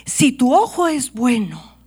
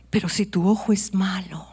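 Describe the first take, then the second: First: Said in the usual way. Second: Soft, near whispered warning; whispered contrast; hushed. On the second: Shown as a demonstration. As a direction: drop to a hush for the bad eye. Good eye set against bad eye.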